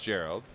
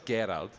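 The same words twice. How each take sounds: First: The name is said the anglicized English way. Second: The name is said the German way.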